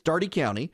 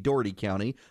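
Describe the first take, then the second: First: Dougherty is pronounced the local, established way. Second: Dougherty is pronounced the way it looks written. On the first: This is how the name is actually said. "notice my correct pronunciation" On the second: This is how the name would seem to be said. "what is, should be Dougherty County"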